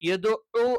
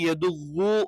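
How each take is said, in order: First: A clear throat consonant is heard mid-word. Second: The throat consonant is heavily overdone and exaggerated. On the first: The speaker calls it right. "ഐനായിരിക്കണം" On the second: The speaker calls it wrong. "Over ആക്കിയിട്ട്"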